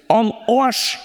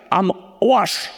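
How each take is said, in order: First: "am Arsch" said the Bavarian way, like "on Oasch"; Bavarian accent. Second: Said in the usual way. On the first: Shown as a demonstration. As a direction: give "am Arsch" a broad Bavarian twang. ("am Arsch" auf Bayerisch, wie "on Oasch") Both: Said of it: "sag's mal auf Bayerisch".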